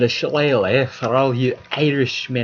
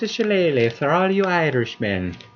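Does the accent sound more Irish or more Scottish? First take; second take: Scottish; Irish. First: It is said in an accent sounding Scottish. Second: It is said in an accent sounding Irish. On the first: The speaker calls it wrong. "That was a bad Irish accent. It sounded more Scottish" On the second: The speaker calls it right. "There, that was better"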